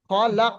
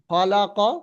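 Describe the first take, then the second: First: The word ends on a bare final consonant. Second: The word ends with a short final vowel. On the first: The reader stops on this word. "লাস্টেরটা সাকিন করে দেওয়া হয়েছে" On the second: The reading continues without stopping. "এতদিন এটা পড়ে এসছেন তো"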